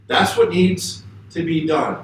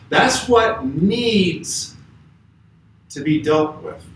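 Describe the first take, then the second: First: Said in the usual way. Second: "needs" drawn out slowly and weighted; stress on needs. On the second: Shown as a demonstration. Preacher stressing what the disciples "needs" dealt with, slow. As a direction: lean hard on "needs", slow it way down. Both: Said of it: "I'm emphasizing the word needs".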